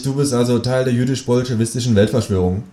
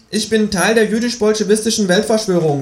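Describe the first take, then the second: First: Said in the usual way. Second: High-pitched kangaroo, matter-of-fact. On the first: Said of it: "rufe ich". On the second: Acted. Kangaroo confesses to the narrator, high creature voice. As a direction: announce it high, as the talking kangaroo. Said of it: "sagt es".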